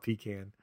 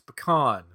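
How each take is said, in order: First: The word sounds like 'pee can'. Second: The word does not sound like 'pee can'. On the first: The speaker calls it wrong. "I hate when people call it pecan. I'm like, that's something you go to the bathroom in" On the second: The speaker calls it right. "you're wrong. It's pecan"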